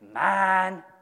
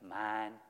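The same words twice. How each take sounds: First: The word is said with strong emotion. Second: The word is said plainly at normal volume. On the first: "Now put a little heart into it and say it with feeling"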